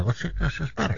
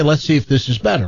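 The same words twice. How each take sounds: First: Much softer echoed repeat; echo on the line. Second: Said in the usual way. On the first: Retold or imitated. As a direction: imitate your words bouncing back faintly. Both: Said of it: "get rid of this echo".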